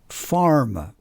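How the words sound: The R before the M is clearly pronounced. "an American would say farmer, farmer. Can you hear the R?"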